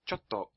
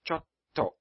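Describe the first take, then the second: First: The t sound is short. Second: The t sound is held long. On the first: The speaker calls it wrong. "instead of saying chotto" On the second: The speaker calls it right. "It's held for an extra beat"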